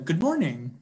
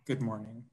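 First: It is said brightly, with lively enthusiasm. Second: It is said flatly, with little enthusiasm. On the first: The greeter is glad and friendly. "good morning over text with an exclamation point" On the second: The greeter is unenthused or curt. "good morning over text with a period"

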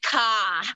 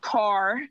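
First: The word is said in an exaggerated Boston accent. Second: The word is said in a standard, non-regional accent. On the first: "they'd be like, car. Like, come on. That sounds like a crow" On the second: "You just said it the proper way"

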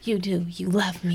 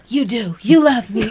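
First: It is said flatly, without much feeling. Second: It is said with more passion and feeling.

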